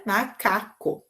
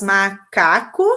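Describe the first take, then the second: First: Said in the usual way. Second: Slow, split macaco into ma-ca-co; syllable by syllable. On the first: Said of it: "muito A, o A, K, o K". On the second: Shown as a demonstration. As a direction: draw out macaco into three syllables. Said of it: "que tem três sílabas".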